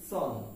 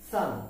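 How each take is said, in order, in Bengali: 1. স্বরধ্বনিটি 'on' এর মতো গোল 'o'। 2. স্বরধ্বনিটি 'sun' এর মতো খোলা 'u'। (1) "আমরা এর উচ্চারণ করে থাকি সন" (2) "এর উচ্চারণ হবে এস ইউ এন, সান"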